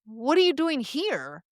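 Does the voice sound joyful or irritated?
joyful. It sounds joyful and excited. The speaker is thrilled to see the listener. "is full of joy and excitement"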